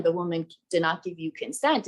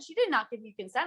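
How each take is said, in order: First: Lightly voiced reasoning mansplainer; chivalrous man. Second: High, quick retold scolding; retold full rage. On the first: Man stepping in to reason with the stranger, mock chivalrous. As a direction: explain it evenly, with a hint of self-appointed knight. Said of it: "decides to be the chivalrous man". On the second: Woman defending the girlfriend's consent, retold rage. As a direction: fire it out fast and higher. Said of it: "full rage".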